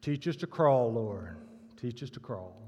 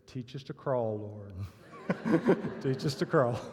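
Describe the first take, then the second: First: A lightly voiced deep call from the back pew, a little lower; earnest plea from a deep-voiced churchgoer. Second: A deep-voiced plea that breaks into laughter; backpedalling churchgoer, lower and laughing. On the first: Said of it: "a booming, deep voice said". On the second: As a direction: deliver the punchline low, then crack up. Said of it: "a deep voice said".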